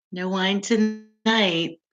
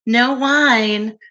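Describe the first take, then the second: First: "No wine tonight." drawn out slowly, softer, falling on "tonight"; slow mock lament. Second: "No wine." with a light punch on "wine"; stressed "wine". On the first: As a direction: mournfully stretch "No wine tonight", dropping at the end. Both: Shown as a demonstration.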